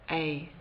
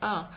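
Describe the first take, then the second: First: The vowel is full, like the letter name. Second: The vowel is short and reduced, like 'uh'. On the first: This is the careful pronunciation. The speaker calls it right. "if we speak correctly we would use this A sound" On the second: This is how it sounds in quick speech. The speaker calls it wrong. "when we speak quickly sometimes people say A"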